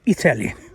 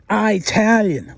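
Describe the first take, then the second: First: It is said in an Australian way. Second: It is said in an American way. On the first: "We say Italian" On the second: "Americans say Italian"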